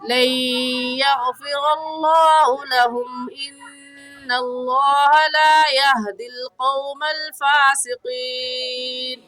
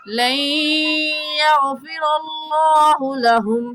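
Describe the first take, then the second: First: The voice runs on from lahum without new breath. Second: The voice stops and a new breath follows lahum. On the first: The speaker calls it wrong. "आवाज़ और सांस दोनों ख़त्म भी नहीं की" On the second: The speaker calls it right. "फिर नए सांस के साथ"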